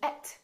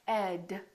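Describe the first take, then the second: First: The name ends in a voiceless sound. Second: The name ends in a voiced sound. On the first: The speaker calls it wrong. "make sure that you don't call him et" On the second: The speaker calls it right. "if you have a friend named Ed"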